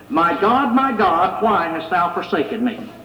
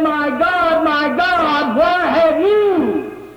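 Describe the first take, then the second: First: Scripture recited without emotion, low at the end; unfeeling reading. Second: High, long-drawn anguished cry; acted emotional outcry, rising at the end; screaming out. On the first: Shown as a demonstration. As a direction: read the cry as mere words, falling away. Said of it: "when I read it like that, doesn't that sound funny". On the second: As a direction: cry to heaven in pain, stretching the words. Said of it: "He was screaming, he was crying".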